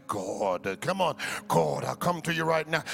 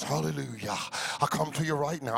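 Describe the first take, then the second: First: Lightly hammed, lower churchy prayer tone; a hint of Bible-college pulpit prayer; preacher voice. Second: Mock pompous preacher tone, dropped low. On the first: Pastor mimicking what Bible college taught, lightly mock. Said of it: "You're using your preacher voice". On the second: Pastor mocking the put-on preacher voice, hammed-up. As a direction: ham up a churchy prayer voice, lower. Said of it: "you know the preacher voice".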